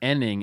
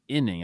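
First: The first vowel sounds like 'eh', as in enning. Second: The first vowel sounds like 'ih', as in inning. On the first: The speaker calls it wrong. "I used to say inning" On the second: The speaker calls it right. "instead of inning"

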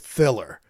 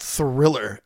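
First: The first R sound is left out. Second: The first R sound is clearly pronounced. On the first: This is how the singer says the word. "He's not using the first R in Thriller most of the time" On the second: This is the standard way to say the word. "not Thriller"

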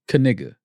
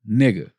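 First: The first K sound is pronounced. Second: The first K sound is silent. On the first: "I say Kaniga" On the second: "The K so may be silent"

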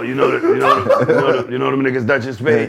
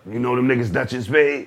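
First: It is said in a put-on, imitated voice. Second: It is said in the speaker's own normal voice.

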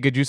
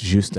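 First: The initial G is pronounced aloud. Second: The initial G is silent. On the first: "if you say Gajusta" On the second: "put a silent letter in it"

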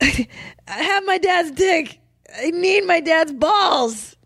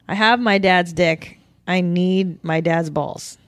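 First: It is said aggressively, with strong emotion. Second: It is said calmly, without much emotion.

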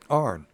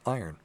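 First: The word is said as one syllable, 'arn'. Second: The word is said as two syllables, 'ire-n'. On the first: The speaker calls it wrong. "There you're from Tennessee" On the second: The speaker calls it right. "The correct pronunciation is iron"

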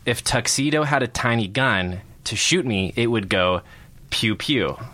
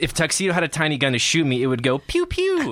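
First: Pew pew is read as plain words. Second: Pew pew is voiced as a gunshot sound effect.

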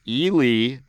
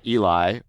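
First: The name is said the local way. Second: The name is said like Eli. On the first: The speaker calls it right. "I shout out to Ely" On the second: The speaker calls it wrong. "not Eli"

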